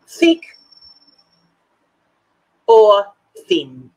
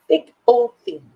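First: Each word called out loud, long gaps between; drawn-out question with pauses. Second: Called out loud in one quick breath; quick called question. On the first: Asking the viewers, slow and loud with pauses. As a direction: ask it slowly, word by word, to the ladies. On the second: Asking the ladies for a quick answer, loud and brisk. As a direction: fire the question straight at them. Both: Shown as a demonstration. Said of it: "I want a quick answer".

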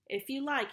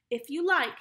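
First: Casual, cool indifference; reply coolly, as if passing the nuts; understated, offhand coolness. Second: Bitter, louder and higher; resentful, forceful consent; bitter reply. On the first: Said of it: "he replied coolly". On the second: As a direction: throw it back bitterly. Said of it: "he repeated bitterly". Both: A narrator's reading.

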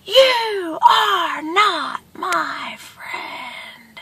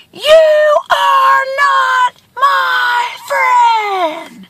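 First: Very slow, high, softened call; each word stretched and faint; distant echo. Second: Very slow, high holler, each word held; long high call with stretched vowels; screamed rebuke. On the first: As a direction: imitate the words drifting back from far away. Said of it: "he hears from the distance". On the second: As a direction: shout it word by word across a canyon. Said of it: "He screams again". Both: A narrator's reading.

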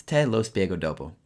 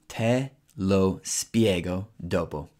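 First: Said in the usual way. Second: Slow, careful Italian for learners; teacher modelling it slowly; slow model phrase. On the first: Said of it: "Only four words". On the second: Shown as a demonstration. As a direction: lay each word out slowly. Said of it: "you would say".

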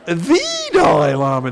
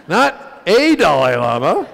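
First: "the" said as a long, loud "thee"; slow and loud, lean hard on "the"; stress on "the". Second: "a" said as a long, loud "ay"; slow and loud, lean hard on "a"; stress on "a". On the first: Comic clarifying who it was, "the" stretched out. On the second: Comic clarifying who it was, "a" stretched out. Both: Retold or imitated.

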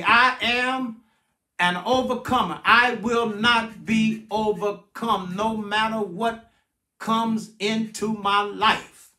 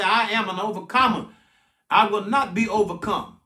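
First: Measured, deliberate declaration to be repeated; slow call-and-response. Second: Said in the usual way. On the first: Shown as a demonstration. Pastor leading the congregation to repeat after him, slow and deliberate. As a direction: spell it out phrase by phrase, slowly. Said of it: "repeat after me". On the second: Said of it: "I need somebody right now to say".

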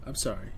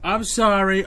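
First: Softer, lower, sincere I'm sorry; sheepish apology. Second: Louder, mock-polite I'm sorry; sarcastic fake apology. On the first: Real, not acted. Streamer apologising to viewers after his outburst, sheepish. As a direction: back down after yelling, embarrassed. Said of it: "I got a little upset there". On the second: Streamer mockingly apologising to the dying patient, sarcastic. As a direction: say sorry like you don't mean it at all.

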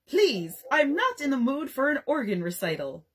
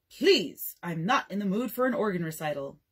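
First: Toddler's mock-grand rebuke, pitched higher; pompous little scold aimed at the guest; offended dignity. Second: Mock offended. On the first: Jack rebukes the dinner guest with offended dignity. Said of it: "he said in offended dignity". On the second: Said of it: "Dad scolds a child".

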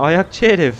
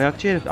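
First: Mock scolding. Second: Said in the usual way. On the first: Real, not acted. Scolding bird at his foot.

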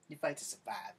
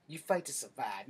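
First: Said in the usual way. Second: "fight" hit hard and loud; stressed. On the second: Shown as a demonstration. Lecturing about street fighting, loud stress on "fight". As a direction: punch the word "fight".

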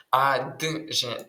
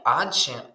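First: «адже» медленно по звукам, а-д-же; растяни «адже», отделив «д» от «ж»; раздельное произношение. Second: «адже» со слитным звуком «дж»; произнеси «адже» одним куском, не отделяя «д» от «ж»; слитное произношение. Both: Shown as a demonstration. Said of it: "тут ми маємо не адже".

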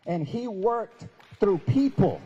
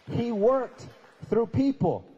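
First: Slow, loud emphasis; emphatic. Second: "worked" rising, pause, then "through people" loud and falling; emphatic pause. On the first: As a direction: drive it home. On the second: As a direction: break the phrase with a pause. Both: Shown as a demonstration.

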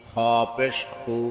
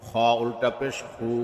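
First: Final "খু" cut short; quick short vowel. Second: Final "খু" held long; drawn-out vowel. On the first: Teacher demonstrating normal pesh, short "খু". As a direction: keep the last "খু" brief, not held. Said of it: "তাড়াতাড়ি করতে হয়". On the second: Teacher demonstrating ulta pesh, long "খু". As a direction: stretch the last "খু" for one alif. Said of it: "একালিপ টেনে পড়তে". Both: Shown as a demonstration.

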